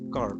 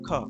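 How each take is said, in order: First: The word ends with an audible r sound. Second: The word ends without any r sound. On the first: This is the American pronunciation. "In case of American English এটা কিন্তু উচ্চারণ করা হয়" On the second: This is the British pronunciation. "British pronunciation অনুযায়ী এটা হবে খা"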